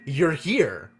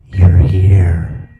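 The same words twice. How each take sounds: First: It is said in a plain voice. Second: It is said in a ghostly voice.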